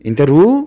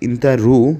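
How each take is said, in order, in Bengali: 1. বাক্যটা উপরের দিকে ধাক্কা দিয়ে শেষ হয়। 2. বাক্যটা সমতলভাবে শেষ হয়, কোনো ধাক্কা ছাড়া। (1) "কথার শেষে ধাক্কা দিবেন" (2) "তুমি যাও"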